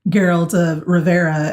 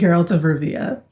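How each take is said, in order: First: The place name is said as 'Riv-air-uh'. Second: The place name is said as 'Riv-ee-uh'. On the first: The speaker calls it wrong. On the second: The speaker calls it right.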